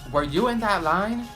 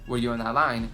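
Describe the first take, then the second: First: The question is yelled loudly and rudely. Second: The question is asked quietly and calmly. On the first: The asker is being rude and making a scene. "rude as and loud as" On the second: The asker is simply checking, without making a scene. "she could have said"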